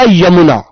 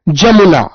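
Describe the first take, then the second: First: The word begins with a Y sound. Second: The word begins with a J sound. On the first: The speaker calls it right. "मैंने एक शब्द बोला यमुना" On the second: The speaker calls it wrong. "जमुना बोलते हैं ना"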